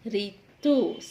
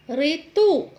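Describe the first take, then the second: First: ऋतु low, with a lighter final tu; correct ऋतु. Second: ऋतु with a loud long final oo; mispronounced ऋतु. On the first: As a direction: let ऋतु drop on a short tu. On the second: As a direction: stress the end, ri-TOO, in ऋतु. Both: Shown as a demonstration. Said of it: "जिनका हम गलत उच्चारण".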